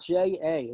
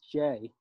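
First: It is said as two letter names. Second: It is said as the single syllable Jay. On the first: The speaker calls it wrong. "It's not J-A" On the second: The speaker calls it right. "it's J"

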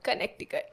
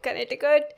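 First: The middle 'k' sound is clearly pronounced. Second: The middle 'k' sound is left out. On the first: This follows the spelling of the word. "There is C in the Connecticut. So I always say it's Connecticut" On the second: This is how other people say it. "I've heard people calling it Connecticut"

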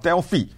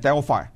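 First: Delphi is said with a Greek pronunciation. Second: Delphi is said with an American pronunciation. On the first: "这是希腊人的发音" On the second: "但是美国人呢念Delphi"

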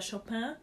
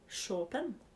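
First: The name is said with a non-Polish pronunciation. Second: The name is said with a Polish pronunciation. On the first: The speaker calls it wrong. "faktisk så heter han egentlig ikke Chopin" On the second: The speaker calls it right. "Han heter Chopin. I hvert fall på polsk"

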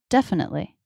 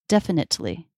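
First: The T is cut off as a stop. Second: The T is fully released as a true T. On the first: The speaker calls it right. "is still a stop T" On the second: The speaker calls it wrong. "Let's try it with a true T to see the difference"

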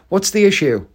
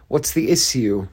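First: The middle of issue has a sh sound. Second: The middle of issue has a hissing s sound. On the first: This is how most people say it. The speaker calls it right. "but everyone says" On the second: This is how politicians say it. The speaker calls it wrong.

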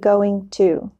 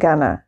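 First: The two words are said fully and separately. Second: The words are reduced and linked into 'gonna'. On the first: The speaker calls it wrong. "it is just never natural to say going to" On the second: The speaker calls it right. "I'm gonna say gonna"

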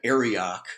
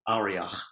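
First: The name is said with an American pronunciation. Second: The name is said with a Hebrew pronunciation. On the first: "we would say in America" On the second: "I went to a Hebrew pronunciation site and they would say Arioch"

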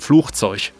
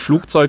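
First: It is said with a Ruhr ch sound. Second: It is said with a hard g sound.

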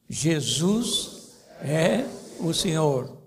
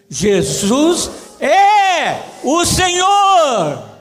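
First: It is said in a plain, calm way. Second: It is said louder with strong emphasis.

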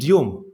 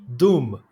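First: The vowel is said with a 'yoo' glide. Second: The vowel is said as a plain 'oo'. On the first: "wilk nie mówi dium" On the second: "wilk mówi dum, tak. Jak zguba"

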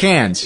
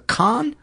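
First: The vowel sounds like the one in 'can'. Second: The vowel sounds like the one in 'con'. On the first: The speaker calls it wrong. "I know it's not Cannes. I used to pronounce it Cannes, too" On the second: The speaker calls it right. "I've heard it pronounced a couple of different ways. A con, I think"

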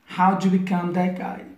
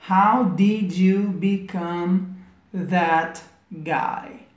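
First: 'How did' is contracted and linked quickly. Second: 'How did' is said slowly as full words. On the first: "tá conectando, juntando, fazendo uma contraction" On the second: "Se a gente fosse falar devagar"

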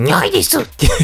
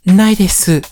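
First: It is said in the Nyarth cartoon-cat voice. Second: It is said in a deliberately mature adult voice.

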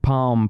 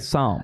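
First: The word begins with a sounded P. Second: The word begins with an S sound. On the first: The speaker calls it wrong. "He thinks it's a silent S" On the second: The speaker calls it right. "A silent P"

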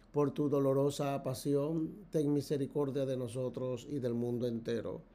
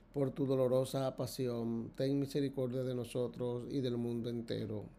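No difference in how they are said.

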